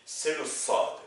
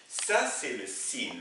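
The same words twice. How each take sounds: First: "sad" with a heavy, back s and a dark vowel like "sod"; emphatic s. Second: "sin" with a light, ordinary front s and a clear i; plain s sound. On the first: Teacher showing students the emphatic sad against sin. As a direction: darken "sad", pull the s and vowel back in the throat. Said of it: "qui se prononce avec une voix grave". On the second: Teacher showing students the plain s of sin. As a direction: say "sin" plainly and slowly, no emphasis in the throat. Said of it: "qui se prononce avec une voix normale". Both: Shown as a demonstration.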